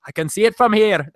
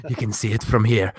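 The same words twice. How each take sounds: First: Irish attempt drifting toward an Indian accent; weak Irish accent that slides Indian; half-hearted Irish accent gone astray; failed Irish accent. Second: A feeble stab at an Irish accent; lightly put-on Irish lilt, low; botched Irish accent, half-hearted; bad Irish accent. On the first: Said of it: "I think that's more like East Indian". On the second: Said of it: "I can't do an Irish accent". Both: Shown as a demonstration.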